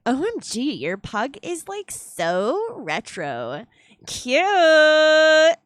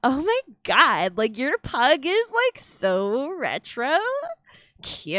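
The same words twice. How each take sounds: First: Put-on hoog, lome Valley Girl-stem met gilletje op cute. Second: Put-on high, slow drawn-out Valley Girl gush. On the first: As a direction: speel een overdreven Valley Girl. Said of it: "I guess you would say O M G in this case". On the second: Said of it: "one of the easier voices to put on". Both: Shown as a demonstration.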